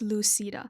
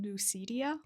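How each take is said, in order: First: The final vowel directly follows the 'd' sound. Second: An extra 'ee' sound comes before the final vowel. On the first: The speaker calls it right. "but no, it's Lucida" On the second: The speaker calls it wrong. "I think I pronounced the name wrong"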